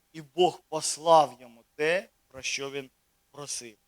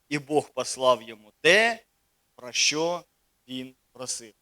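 Both takes have the same delivery.

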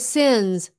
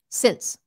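First: The word ends in a buzzing z sound. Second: The word ends in a hissing s sound. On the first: The speaker calls it wrong. "Don't say sins" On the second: The speaker calls it right. "Say since"

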